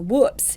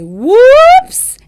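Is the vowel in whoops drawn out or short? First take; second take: short; drawn out. First: The vowel is short and clipped. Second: The vowel is stretched out and exaggerated. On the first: The speaker calls it wrong. "instead of saying" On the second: The speaker calls it right. "really exaggerate and elongate that vowel"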